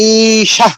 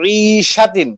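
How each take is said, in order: First: The word ends after the 'sha' syllable. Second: The word ends with a 'tin' syllable. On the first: The reader stops at this word. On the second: The reading continues without stopping.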